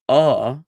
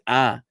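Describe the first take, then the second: First: The vowel is said the Ashkenazic way. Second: The vowel is said the Sephardic way.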